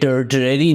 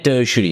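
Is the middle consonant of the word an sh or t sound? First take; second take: t; sh. First: The middle consonant is a t sound. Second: The middle consonant is an sh sound. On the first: The speaker calls it wrong. "ये टर्टरी नहीं है" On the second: The speaker calls it right. "टर्शरी है"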